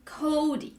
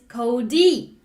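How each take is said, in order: First: The stress is on the first syllable. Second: The stress is on the second syllable. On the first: "which is normal, right? The regular way" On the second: "So that one, yeah, is backwards"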